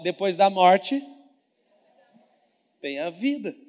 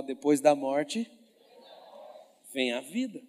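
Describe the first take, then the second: First: "Depois da morte" alto e lento; em coro, forte. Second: "Depois da morte" mais baixo e lento; mais grave e contido. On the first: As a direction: puxe o coro, forte e arrastado. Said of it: "Fala assim, ó". (pregador puxa a frase com a igreja, alto e lento) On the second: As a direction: diga devagar, voz grave, sem gritar. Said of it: "Fala assim com a sua boca". (pregador repete a frase, mais grave e calmo) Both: Shown as a demonstration.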